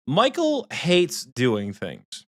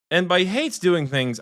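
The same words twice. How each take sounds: First: Drawn-out Michael hates doing things; slow emphatic statement. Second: Hates lifted high and leaned on; stress on hates. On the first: Telling the group, slow and deliberate. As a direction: spell it out slowly. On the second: Explaining to the group, hates stressed high. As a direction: punch the word hates. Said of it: "I mean hates". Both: Shown as a demonstration.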